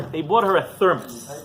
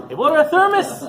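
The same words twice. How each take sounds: First: Said in the usual way. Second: Thermos said much higher and louder, rising; stress on thermos. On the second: Shown as a demonstration. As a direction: punch thermos up high with a rising lift.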